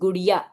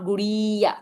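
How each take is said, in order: First: The 'i' vowel is kept short. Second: The 'i' vowel is drawn out long. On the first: The speaker calls it right. "so short sound" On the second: The speaker calls it wrong. "it's not गुड़िया"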